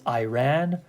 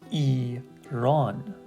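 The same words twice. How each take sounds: First: It is said with an English-style pronunciation. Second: The second syllable's vowel sounds like 'up'. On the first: The speaker calls it wrong. "they usually read this word as Iran" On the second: The speaker calls it right. "It's actually Iran"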